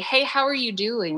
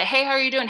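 First: It sounds warm and sincere. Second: It sounds quick and perfunctory.

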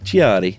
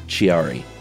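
First: It is said in an Italian accent. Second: It is said in a plain English accent. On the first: The speaker calls it right. "You got to say it like an Italian person" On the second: The speaker calls it wrong. "I bet you it's not Chiari"

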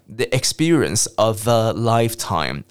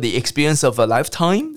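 First: The pitch falls toward the end. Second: The pitch keeps rising toward the end. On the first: The speaker calls it right. "往下降" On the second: The speaker calls it wrong. "语调都会一直往上飘"

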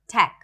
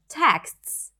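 First: The final consonants are left off. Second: The final consonants are clearly pronounced. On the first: The speaker calls it wrong. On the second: The speaker calls it right.

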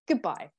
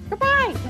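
First: It is said in the speaker's usual accent. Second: It is said in a put-on Irish accent.

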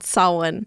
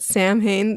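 First: The word is pronounced the Celtic way, unlike spelling. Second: The word is pronounced following its English spelling. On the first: The speaker calls it right. "it's called Samhain because the Celtic pronunciations of things are all weird" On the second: The speaker calls it wrong. "I think I called it Samhain. That's how it's spelled"

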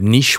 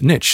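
First: It is said with a British pronunciation. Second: It is said with an American pronunciation.

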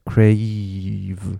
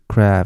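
First: The vowel glides closed toward 'ee'. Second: The vowel stays open without closing. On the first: The speaker calls it right. "你要闭起来crave，这样就会没错" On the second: The speaker calls it wrong. "很多人就只是crave，然后他们嘴巴就开了"

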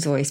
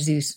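First: The name has its original, non-American pronunciation. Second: The name has its American English pronunciation. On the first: "it was Theodore Zeus Geisel. So it would have been Zeus" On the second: "in American English it became Zeus"

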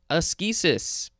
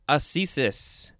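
First: The middle consonant is a hard k sound. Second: The middle consonant is a soft s sound.

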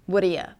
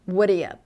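First: The words blend into one short reduced form. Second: The words blend into one short reduced form.

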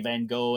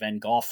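First: The name is said the French way. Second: The name is said the British way. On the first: "the French say Van Gogh" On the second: "the British say Van Gogh"

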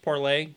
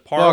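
First: The word ends with a 'lay' sound. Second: The word ends with an 'ler' sound. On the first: This is the intended French-style pronunciation. "it was originally supposed to be pronounced Parlay" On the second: This is how most people say it. "Everyone pronounces it Parler"

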